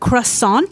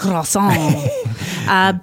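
First: The word is pronounced with an English accent. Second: The word is pronounced with a French accent. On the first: "Is the English way" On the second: "If you want to try to pronounce this like a real Frenchman, you can say croissant"

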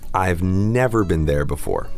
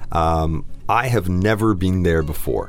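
First: Have is reduced to a v sound. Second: The word have is said in full.

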